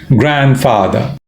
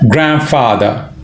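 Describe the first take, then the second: The two takes are said the same way.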